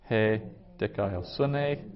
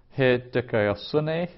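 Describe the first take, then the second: First: "He" then pause then "dikaiosune", slow; split slow repeat. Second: "He dikaiosune" slow, stress on "he"; Greek word said slowly. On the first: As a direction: break it up: "He" ... "dikaiosune". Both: Shown as a demonstration. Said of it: "Some vocabulary".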